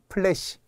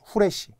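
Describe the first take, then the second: First: The word begins with a p sound. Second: The word begins with an h sound. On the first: The speaker calls it right. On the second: The speaker calls it wrong.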